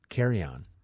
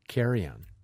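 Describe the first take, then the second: The two takes are said the same way.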